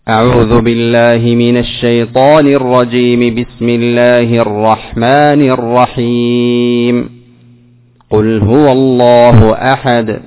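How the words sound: There is a pause only after the second phrase. "وصلت الأول مع الثاني وماذا؟ وقفت على الثاني ثم بدأت بأول السورة"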